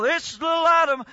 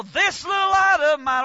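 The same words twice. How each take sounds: First: Half-hearted singing. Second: High, slow sung line; sung, belt it like a proud child; sung out proudly. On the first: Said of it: "You didn't ever get up there and go". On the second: Children singing out in church, loud and proud. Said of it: "man, you'd go". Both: Retold or imitated.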